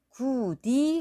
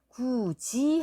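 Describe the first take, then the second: First: The middle consonant is a plain d sound. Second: The middle consonant is a j sound. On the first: The speaker calls it wrong. "구디 하고 소리를 내는 것보다가" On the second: The speaker calls it right. "구지 하고 소리를 내는 게 훨씬 편안하거든요"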